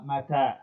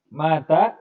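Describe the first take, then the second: First: The first vowel is short, the second long. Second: The first vowel is long, the second short. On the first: It means when. The speaker calls it right. "inama mata, hakada. Jadi yang panjang itu taknya" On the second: It means died. The speaker calls it wrong. "Kalau maknya yang panjang"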